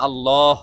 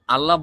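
First: আল্লাহ with a heavy, drawn-out, rounded second syllable; refined pronunciation. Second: Said in the usual way. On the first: Shown as a demonstration. Teacher shows the more beautiful way to say it, refined pronunciation. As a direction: say আল্লাহ as "al-lawh", swelling on the end. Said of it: "উচ্চারণটি আরও সুন্দর করে বলতে চান". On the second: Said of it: "Bangla ভাষায় বললে আপনি".

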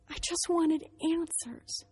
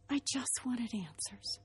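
First: Slow, high-pitched plea; heartfelt plea. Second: Slow, soft near-whisper; hushed plea. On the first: Speaker pleads her reason to the audience, slow and high. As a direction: draw it out slowly in a raised voice. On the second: Speaker repeats her plea to the audience, hushed and slow. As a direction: let the voice drop away to a slow whisper. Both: Real, not acted.

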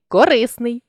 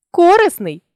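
First: Корисний with РИ stressed; stress on middle syllable. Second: Корисний with КО punched high; stress on first syllable. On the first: Teacher shows a stress variant, корисний stressed on РИ. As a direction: lean on РИ inside корисний. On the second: Teacher shows a stress variant, корисний stressed on КО. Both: Shown as a demonstration. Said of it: "наголосивши той чи інший склад".

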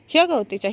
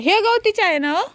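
First: Said in the usual way. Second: "गवतीच्या" high, quick and rising; excited question. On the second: Real, not acted. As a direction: ask "ह्या गवतीच्या आहे ना हो?" eagerly, pitch jumping up. (उत्सुकतेने विचारलेला प्रश्न)

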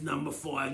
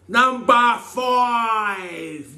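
First: Said in the usual way. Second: Very slow, high drawn-out call; game show announcer. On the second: Acted. Reading the next question, he announces it like a host. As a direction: draw it out like a quiz host.

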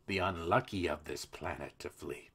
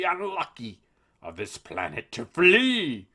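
First: Said in the usual way. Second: Silly Juncker voice. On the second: Retold or imitated. Host quotes the EU president's line in a silly voice. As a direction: drag it out pompously to ridicule him. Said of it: "make him sound silly".

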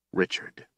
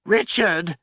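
First: An unvoiced whisper of the name; stunned breathless whisper. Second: Sudden anguished shout; anguished cry. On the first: A narrator's reading. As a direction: barely breathe it in horror. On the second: Acted. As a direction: cry out his name in despair. Desperate cry of a name.

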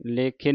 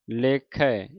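First: ਲੇਖੇ ending in long e; closed e ending. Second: ਲੇਖੈ ending in open ai. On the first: Teacher showing students the mistake, ਲੇਖੇ with final e. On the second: Teacher modelling it for students, ਲੇਖੈ with final ai. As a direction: open the last vowel of ਲੇਖੈ to ai. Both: Shown as a demonstration. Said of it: "ਲੇਖੇ ਨਹੀਂ ਪੜ੍ਹ ਦੇਣਾ".

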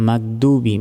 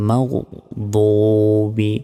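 First: মাগদুবি quick, with hard g and thin d; common mispronunciation. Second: মাগদুবি slow, as magh, then thick rounded doo-bi; heavy dad. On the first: Teacher quotes the mistake, quick thin মাগদুবি. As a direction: say মাগদুবি lightly as mag-dubi. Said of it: "অনেকে কি বলি". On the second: Teacher models the right reading, slow heavy মাগদুবি. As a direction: thicken the d of মাগদুবি and hold the vowel. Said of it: "মোটাভাবে উচ্চারণ হবে". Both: Shown as a demonstration.

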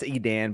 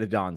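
First: Edan ending like "Dan"; correct pronunciation. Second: Adan ending like "don"; preferred mispronunciation. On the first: Podcaster admitting the real title, Edan rhymed with "man". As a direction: say Edan with the short "a" of "cat" in the last syllable. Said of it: "I know it's Edan". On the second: Podcaster defending his cooler version, Adan rhymed with "gone". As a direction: say Adan with an open "ah" in the last syllable. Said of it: "Adan sounds way cooler". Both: Shown as a demonstration.

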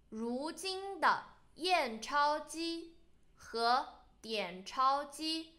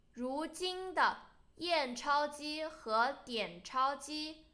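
No difference in how they are said.

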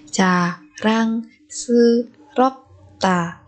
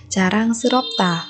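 First: Very slow, separated "Jarangseuropta"; syllable by syllable. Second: Said in the usual way. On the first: Shown as a demonstration. Teacher modelling a word for learners, very slowly. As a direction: space out every syllable of "Jarangseuropta".

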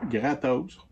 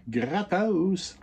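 First: "Gratos" repeated at normal pitch with a little rise at the end; "Gratos" said plainly, lifting slightly. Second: "Gratos" stretched out high and relished, the word rolled slowly; savoured word. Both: Shown as a demonstration. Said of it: "on aime ça, ce mot-là".

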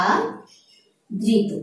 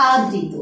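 First: আদৃত stretched slowly, each sound held; slow demonstration. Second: Said in the usual way. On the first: Shown as a demonstration. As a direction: say আদৃত again slowly so the ri is heard. (আদৃত ধীরে টেনে উচ্চারণ) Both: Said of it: "একটি শব্দ আছে".

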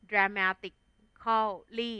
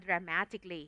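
First: "dramatically" slowly as dra-ma-tik, khaw, lee; spelling pronunciation. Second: "dramatically" as dra-MA-tik-lee, four syllables; correct pronunciation. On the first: Teacher building the adverb for students, "dramatically" slowly with full -khaw-lee. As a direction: break "dramatically" up, sounding the "-cal-". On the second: Teacher giving the real reading, "dramatically" shortened to dra-ma-tik-lee. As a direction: drop the "-al-" in "dramatically". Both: Shown as a demonstration. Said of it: "แต่อ่านว่า".

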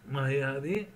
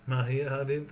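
No difference in how they are said.

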